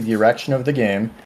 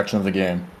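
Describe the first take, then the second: First: The words are spoken slowly. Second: The words are spoken quickly. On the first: The speaker calls it right. "I'll say it slowly" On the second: The speaker calls it wrong. "you talk too fast"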